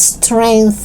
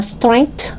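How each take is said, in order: First: "strength" with released TH; tongue out to close "strength"; TH sound. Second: "strength" as "strenkt"; hard T closing "strength". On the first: Teacher correcting learners, "strength" with clear TH. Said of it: "It's strength". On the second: Teacher showing learners the mistake, "strength" with final T. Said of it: "It's not strength". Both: Shown as a demonstration.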